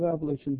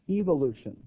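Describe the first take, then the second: First: It is said with an American pronunciation. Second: It is said with a British pronunciation.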